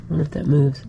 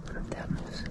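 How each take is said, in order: First: Said in the usual way. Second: Whispering. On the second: Real, not acted. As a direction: Wonder if that moves whispered unvoiced. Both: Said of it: "Why am I whispering?".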